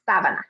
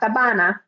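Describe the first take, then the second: First: The stress is on the first syllable. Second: The stress is not on the first syllable. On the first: The speaker calls it right. "that stress on the A, the first A" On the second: The speaker calls it wrong. "So not sabana"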